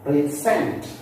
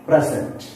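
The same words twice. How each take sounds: First: "Present" with SENT strong and rising; stress on second syllable. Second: "Present" with PRES strong, falling away after; stress on first syllable. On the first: Teacher listing verbs for learners, second-syllable stress. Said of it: "give stress on the second syllable". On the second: Teacher listing adjectives for learners, first-syllable stress. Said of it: "here also we stress on first syllable". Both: Shown as a demonstration.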